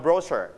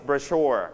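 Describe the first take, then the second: First: Brochure said BRO-shure with an r-coloured ending, British style; British pronunciation. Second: Brochure said bro-SHURE, weight on the second syllable; stress on the second syllable. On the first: Teacher contrasts the British way of saying brochure for students. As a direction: give brochure the British reading. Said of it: "but in British we pronounce brochure". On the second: Teacher models brochure for the class with second-syllable stress. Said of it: "you stress on first or second syllable". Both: Shown as a demonstration.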